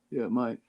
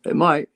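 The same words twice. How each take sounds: First: Said in the usual way. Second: Loud and high, teasing; emphatic. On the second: Real, not acted. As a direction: punch it out playfully. Playful reply about battery range.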